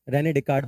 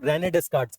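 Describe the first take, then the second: First: The s and final s sounds are silent. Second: The s and final ts sounds are pronounced.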